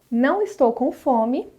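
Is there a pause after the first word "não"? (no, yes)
no. It runs on with no pause after "não". The speaker is not hungry. "sem e com pontuação"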